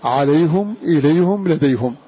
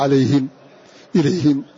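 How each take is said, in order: First: عليهم إليهم لديهم read with a damma, ʕalayhum, ilayhum, ladayhum; Hamza's damma on the ha. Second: عليهم and إليهم read with a kasra, ʕalayhim, ilayhim. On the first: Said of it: "ويبقى حمزة على أصله". (عليهم إليهم لديهم بضم الهاء) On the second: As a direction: end عليهم and إليهم in -him. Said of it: "فيقرأه كالجماعة". (عليهم إليهم بكسر الهاء) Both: Shown as a demonstration.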